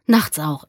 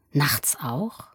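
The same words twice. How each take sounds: First: "Nachts auch" stated with a falling end; "Nachts auch" as a falling reply; firm answer. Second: Soft rising question on "Nachts auch"; "Nachts auch" as a hushed query. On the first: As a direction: confirm "Nachts auch" as fact, at full voice. Boy answers the question. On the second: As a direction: ask "Nachts auch" quietly, lifting the end. Man questions the boy. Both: A narrator's reading.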